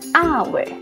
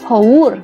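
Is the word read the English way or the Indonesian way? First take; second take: English; Indonesian. First: It is read with English pronunciation. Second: It is read with Indonesian spelling sounds. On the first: This is how the word is actually read. "Bahasa Inggris bacaannya hour" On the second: This is how the written letters look. "Tulisannya haur, haur. Itu tulisan ya. Kalau di bahasa Indonesia kan dibaca haur"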